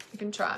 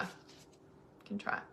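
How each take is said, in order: First: Said in the usual way. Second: Breathy slow whispered echo. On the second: Shown as a demonstration. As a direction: whisper it slowly. Whispered echo of own line.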